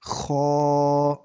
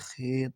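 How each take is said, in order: First: It is said with Arabic pronunciation, ending in a. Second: It is said with Urdu pronunciation, ending in e. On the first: The speaker calls it right. "अरबी लहजे में अदा करें" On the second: The speaker calls it wrong. "Urdu तलफ़्फ़ुज़ से परहेज़ करें"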